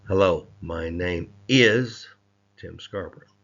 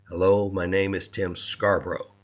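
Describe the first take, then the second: First: The stress is on "is". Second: The stress is on "Scarborough".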